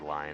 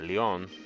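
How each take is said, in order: First: The name is pronounced like the English word lion. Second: The name is pronounced with a French accent. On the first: "I guess I could say lion if I wanted to" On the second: "I always put the French accent on it"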